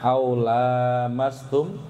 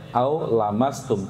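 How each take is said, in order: First: The vowel after the L is held long. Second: The vowel after the L is kept short. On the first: "Yang pertama" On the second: "tanpa alif"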